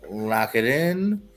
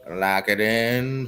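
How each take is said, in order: First: Stretched, rising lock it in; slow drawn-out. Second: Slow, level lock it in; slow flat. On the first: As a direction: drag it out slowly. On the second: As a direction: say it slow and final. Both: Shown as a demonstration.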